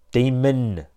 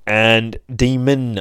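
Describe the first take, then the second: First: Said in the usual way. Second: "demon" said as "timənd", with an extra D at the end; mispronounced "demon". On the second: Shown as a demonstration. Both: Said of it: "I always put a D on the end of demon".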